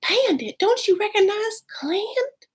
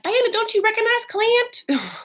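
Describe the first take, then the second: First: It is said in a more breathy voice. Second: It is said in a plain, less breathy voice.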